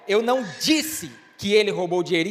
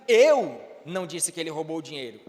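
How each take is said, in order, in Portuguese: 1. A ênfase cai na palavra disse. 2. A ênfase cai na palavra eu. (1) "então o que foi que você disse?" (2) "então quem foi que disse se não foi você?"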